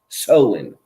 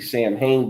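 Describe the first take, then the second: First: It is said as two short syllables, 'Sow-in'. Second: It is read letter by letter as 'Sam-hain'. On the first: The speaker calls it right. "but it's actually pronounced Soin" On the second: The speaker calls it wrong. "if you were to read it phonetically"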